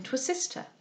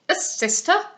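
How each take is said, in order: First: Said in the usual way. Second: Higher questioning captain's retort; scoffing disbelief, rising at the end; incredulous echo. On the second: A narrator's reading. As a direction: throw it back as an affronted question. Captain echoes the proposal incredulously.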